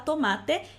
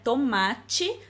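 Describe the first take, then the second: First: The last t is a plain t sound. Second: The last t is not a plain t sound. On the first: This is a regional way, closer to Spanish. "dependendo da região do país, a gente também pode falar tomate, e aí é mais parecido com o espanhol" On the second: This is one common Portuguese way of saying it. "em português a gente pode falar assim"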